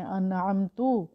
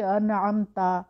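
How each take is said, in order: First: انعمتو ending in "tu" with pesh; انعمتو slowly, last syllable "tu"; wrong vowel. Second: انعمتا slow, ending in a clear "ta" with zabar; انعمتا, last syllable "ta", drawn out; correct recitation. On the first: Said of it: "اگر ہم اس کو پڑھ لیں انعمتو". (انعمتو آخر میں پیش کے ساتھ) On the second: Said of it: "تا کے اوپر زبر ہے". (انعمتا آخر میں زبر کے ساتھ، آہستہ) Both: Shown as a demonstration.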